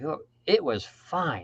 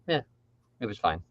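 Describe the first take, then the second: First: It sounds enthusiastic and impressed. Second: It sounds lukewarm and unimpressed.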